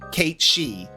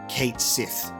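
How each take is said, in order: First: The second word sounds like she. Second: The second word sounds like sith. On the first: "it's a like Gaelic Scottish stuff, so it's like Kate She" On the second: "it is pronounced how it has been written"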